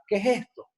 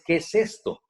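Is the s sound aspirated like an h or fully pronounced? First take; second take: aspirated; fully pronounced. First: The s sounds are softened into breathy h sounds. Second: The s sounds are clearly and fully pronounced. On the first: The speaker calls it wrong. "en este del venezolano" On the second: The speaker calls it right. "tenga su sonido real, no un sonido como J"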